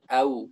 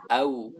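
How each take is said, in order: Both takes have the same delivery.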